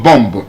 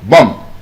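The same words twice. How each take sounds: First: The final B is pronounced. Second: The final B is silent. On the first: The speaker calls it wrong. "B O M B is not bomb" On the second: The speaker calls it right. "letter B coming after M would usually be silent"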